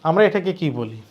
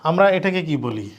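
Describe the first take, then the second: No difference in how they are said.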